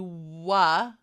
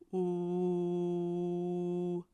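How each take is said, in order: First: A short vowel is added after the sound. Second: The sound is said without an added vowel. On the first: The speaker calls it wrong. "We don't say wa, wa. We are having that schwa in there" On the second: The speaker calls it right. "So for that sound itself, it's the ooh"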